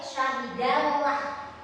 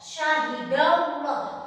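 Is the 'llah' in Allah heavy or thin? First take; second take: thin; heavy. First: The 'llah' is thin, with an open A vowel. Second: The 'llah' is heavy, with a rounded O-like vowel. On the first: The speaker calls it wrong. "Tidak boleh" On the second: The speaker calls it right. "maka dibacanya berbunyi O"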